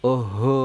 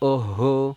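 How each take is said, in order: The two takes are said the same way.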